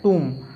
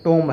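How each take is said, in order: First: The vowel sounds like "oo". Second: The vowel sounds like "oh". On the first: The speaker calls it right. "इसको क्या पढ़ते हैं" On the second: The speaker calls it wrong. "लेकिन टोम नहीं है ये"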